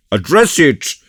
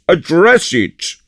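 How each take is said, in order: First: Loud eager call, pitched up; cried out. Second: Drawn-out hearty shout, higher still; slower, louder repeat. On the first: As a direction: urge him on heartily. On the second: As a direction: insist with big booming glee. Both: Acted. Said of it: "cried Porthos".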